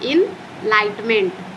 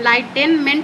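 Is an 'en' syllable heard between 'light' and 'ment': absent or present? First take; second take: absent; present. First: No 'en' syllable comes before 'ment'. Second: An extra 'en' syllable comes before 'ment'. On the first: The speaker calls it right. "इसको पढ़ना है इनलाइटमेंट" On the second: The speaker calls it wrong. "यहाँ पे आप इसको इनलाइटेनमेंट नहीं पढ़ सकते"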